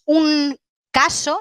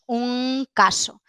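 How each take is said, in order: First: The nasal is made with the tongue tip. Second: The nasal is made at the back of the mouth. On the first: The speaker calls it wrong. "no decimos" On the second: The speaker calls it right. "Esta es velar"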